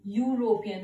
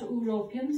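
First: The word begins with a 'y' consonant sound. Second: The word begins with a plain vowel sound. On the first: The speaker calls it right. "your sound" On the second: The speaker calls it wrong. "not European"

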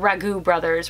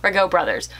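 First: Ragu sounds like the pasta sauce brand name. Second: Ragu sounds unlike the pasta sauce brand name. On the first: The speaker calls it wrong. "I might have said it like the pasta sauce" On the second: The speaker calls it right. "I think it's Ragu"

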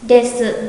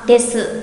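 The two takes are said the same way.

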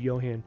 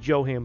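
First: The name begins with a Y sound. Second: The name begins with a J sound. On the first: The speaker calls it right. "it's actually Johan" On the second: The speaker calls it wrong. "a lot of people say Johan"

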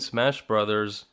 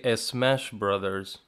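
First: The word starts directly with the s sound. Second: An extra vowel is added before the s sound. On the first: "Instead of saying Smash Brothers" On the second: "some people say a Smash Brothers"

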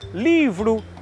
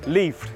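First: The whole word is pronounced, every syllable. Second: The final syllable is reduced or cut off. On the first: This is the standard pronunciation. "Não dizemos livro" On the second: This is how people in São Miguel say it. "dizemos livre"

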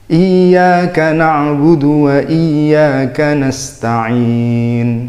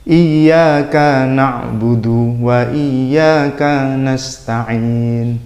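First: The vowels are short and run straight on. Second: The vowels are stretched to about two beats. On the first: The speaker calls it right. "Ini contoh yang benarnya" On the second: The speaker calls it wrong. "Itu kan panjang"

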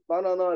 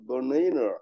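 First: It is pronounced the Korean way. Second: It is pronounced the American English way. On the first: "실제 미국 사람들은 바나나 이렇게 안 하고" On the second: "banana 라고 발음합니다"

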